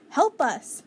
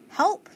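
First: Raised cry for help that falls at the end; calling for help. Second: Short, higher and louder call of help, rising; higher cry for help. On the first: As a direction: call out to the neighbors, louder. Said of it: "Missus Watson called". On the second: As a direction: call out again, more urgently. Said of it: "Missus Watson called again". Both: A narrator's reading.

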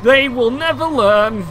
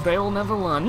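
First: Slow, loud, drawn-out gloat; stretched-out mock-triumphant declaration. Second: Said in the usual way. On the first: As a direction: proclaim it grandly over beaten foes. Gloats over enemies hitting mines.

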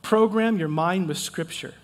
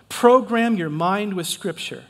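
First: Said in the usual way. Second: Slower, stressing each word; stressed and drawn out; slow, emphatic repeat. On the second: Shown as a demonstration. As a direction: drive the phrase home slowly. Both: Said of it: "here's another one".

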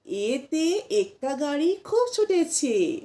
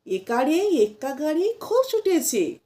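First: এতে said short as "ete", not একারে; corrected rhyme with a crisp এতে; correct pronunciation. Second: একারে said as "ekare", the common wrong way; wrong pronunciation. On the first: Teacher gives pupils the right version, chanted rhyme. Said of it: "না". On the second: Teacher shows pupils the wrong version, chanted rhyme. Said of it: "অনেকে বলে থাকবেন". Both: Shown as a demonstration.

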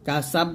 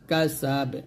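First: কাসাব cut shut on a doubled b; wrong qalqalah. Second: কাসাব with long second vowel and bouncing b; correct qalqalah. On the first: Teacher warns learners, কাসাব with a closed final b. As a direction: say কাসাব with no bounce after the b. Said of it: "কাসাব বলবেন না". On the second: Teacher shows learners how, কাসাব with echoed b. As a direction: release the final b of কাসাব with a light echo. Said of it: "এরকম". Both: Shown as a demonstration.

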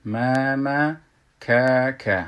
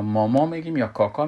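First: ماما and کاکا as thin "maemae", "kaekae"; Arabic front vowels. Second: ماما and کاکا as rounded "mawmaw", "kawkaw"; Persian back vowels. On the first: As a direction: say ماما and کاکا with the open vowel of "cat", drawn out. (تلفظ باریک عربی) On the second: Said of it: "فارسی بگوییم که". (تلفظ بلند فارسی) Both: Shown as a demonstration.

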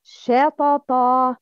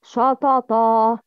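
First: "shatata" opening on a thin "sheh", slow; light sha, then heavy "toto" in "shatata"; correct light shin. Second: "shatata" opening on a dark "shaw"; all syllables of "shatata" heavy and backed, slowly; wrong heavy shin. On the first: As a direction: slowly, keep the first syllable of "shatata" fronted. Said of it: "The right is". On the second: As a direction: thicken the first vowel of "shatata". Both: Shown as a demonstration.

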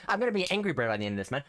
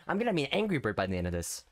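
First: Rushed exasperated line; fast frustrated rant. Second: Said in the usual way. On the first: Real, not acted. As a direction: blurt it out fast in annoyance.

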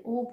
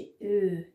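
First: او said as a back "oh"; plain o vowel. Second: او said as a long front rounded "ö"; o turned ö. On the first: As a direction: say the first او as o, without umlaut. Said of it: "اگه او بود". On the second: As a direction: say the final او as German ö. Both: Shown as a demonstration.

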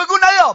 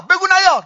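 First: Chanted, raised, ringing call to the crowd; chanted, call it out for all to repeat. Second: Chanted, high, falling call to the crowd; chanted, ring out the refrain once more. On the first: Preacher leading mourners in a chanted refrain. Calls line for mourners to echo. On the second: Chanted, preacher repeating the refrain for mourners to echo. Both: Acted.

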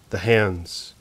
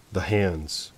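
First: Said in the usual way. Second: Hushed repeat. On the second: A narrator's reading. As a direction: drop much softer on the hands. Narrator repeats, chill dawning.

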